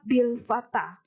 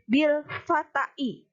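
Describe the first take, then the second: First: The last word ends in a long a. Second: The last word ends in an added i. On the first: The speaker calls it right. "harus dibaca tetap bil fata" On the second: The speaker calls it wrong. "tidak boleh dibaca bil fatai. Salah"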